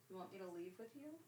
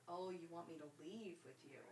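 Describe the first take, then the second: First: Soft quick pet talk. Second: Soft pet talk. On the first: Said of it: "faster repeat". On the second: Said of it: "soft to cat". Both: Real, not acted.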